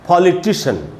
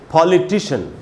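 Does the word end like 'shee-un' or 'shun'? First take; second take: shun; shun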